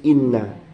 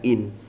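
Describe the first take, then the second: First: The nun sound is doubled and held. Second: The nun sound is single and light. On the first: "bitasydid kelawan tasydid inna" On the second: "bitakhfif kelawan takhfif jadinya in"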